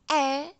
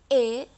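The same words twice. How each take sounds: First: The vowel is the slanted miring E sound. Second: The vowel is the ordinary jejeg E sound. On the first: "E miring E" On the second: "E jejeg itu E"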